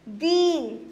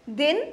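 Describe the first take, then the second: First: दीन with a long drawn-out ee; long vowel. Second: दिन with a short, quick i; clipped short vowel in दिन. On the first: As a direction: stretch the ee in दीन. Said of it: "उस सुर को लंबा खींचेंगे". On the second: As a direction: say दिन briefly, vowel not drawn out. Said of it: "जब बड़ी की मात्रा लगाएंगे थोड़ा उस सुर को लंबा खींचेंगे". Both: Shown as a demonstration.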